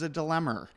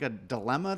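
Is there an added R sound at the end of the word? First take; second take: yes; no. First: It ends with an added R sound, East Coast style. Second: It ends in a plain vowel without R.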